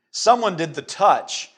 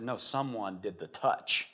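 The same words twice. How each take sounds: First: Slow, loud, raised declaration; emphatic insistence. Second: Slow, low, soft reply; quiet insistence. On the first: Jesus insisting to his disciples that he was touched, emphatic. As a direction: hit it hard and draw it out. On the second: Jesus answering his disciples in the crowd, quietly insistent. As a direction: say it softly and deliberately, holding firm. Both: Acted.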